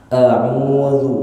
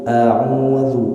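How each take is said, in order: The two takes are said the same way.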